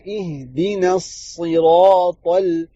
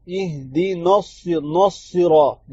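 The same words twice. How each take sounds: First: اہدنا الصراط slowly with a thin noon into the saad; thin noon joined. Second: اہدنا الص- slowly with a heavy noon; heavy noon mistake. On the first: Teacher showing the right join, slowly. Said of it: "نا کو جو ہے صاد کے ساتھ ملائیں گے". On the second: Teacher imitating the wrong heavy noon, slow. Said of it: "نون کو موٹا کر دیتے ہیں". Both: Shown as a demonstration.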